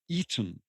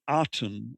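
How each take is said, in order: First: The first vowel is an 'e' sound. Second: The first vowel is an open 'a' sound. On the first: The speaker calls it right. "It's more the Eden" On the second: The speaker calls it wrong. "it's not the Aten as we normally um, pronounce it"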